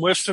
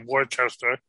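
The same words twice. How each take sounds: First: It is said in a local Massachusetts accent. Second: It is said the way outsiders say it.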